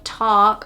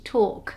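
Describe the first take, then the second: First: An open, wide American vowel. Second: A closed, narrow British vowel. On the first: "Instead of talk" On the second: "we would say talk"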